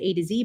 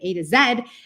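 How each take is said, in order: First: It is said in an American accent, ending 'zee'. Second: It is said the global way, ending 'zed'.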